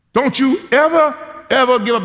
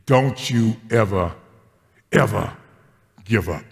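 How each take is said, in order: First: Put-on high, loud child insisting on ever; a five-year-old laying down the law; little girl shouting up at grandpa, high and fierce; bossy little girl. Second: Lower, slow, each ever weighed; slow, solemn charge. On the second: Acted. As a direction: lay the charge down gently. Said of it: "in the words of prophetess Janie".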